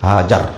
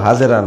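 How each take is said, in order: First: The name is said with two syllables, ending -ar. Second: The name is said with three syllables, ending -era. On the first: The speaker calls it right. "আমি অনুবাদ করার সময় সময় হাজার বলি" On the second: The speaker calls it wrong. "শব্দ হাজেরা না"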